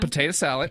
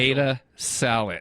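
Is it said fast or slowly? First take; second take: fast; slowly. First: It is said at a quick pace. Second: It is said at a slow pace.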